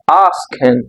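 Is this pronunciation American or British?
British. It is said with a British accent. "Mas no inglês britânico, na maioria dos casos, você vai pronunciar asking"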